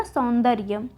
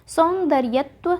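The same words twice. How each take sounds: First: सौंदर्य ending on "rya"; सौंदर्य as saun-dar-ya; correct form shown. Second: सौंदर्यत्व slowly with extra -tva; slow, rising सौंदर्यत्व ending in tva; wrong form shown. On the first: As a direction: say सौंदर्य with no -tva. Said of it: "क्या होगा?". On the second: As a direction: say सौंदर्यत्व as saun-dar-ya-tva. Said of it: "ना होके क्या होगा". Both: Shown as a demonstration.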